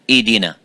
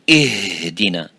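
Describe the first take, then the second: First: The h sound is left out entirely. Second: The h is pushed out with too much force. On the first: "if it's weak and weaker and weaker, you make it weaker, it becomes" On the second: "if we try to give it more strength"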